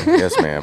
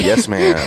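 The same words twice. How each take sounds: First: Said in the usual way. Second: Playful yes ma'am. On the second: Real, not acted. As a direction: chirp a sheepish "Yes, ma'am". Joking after spilling coffee.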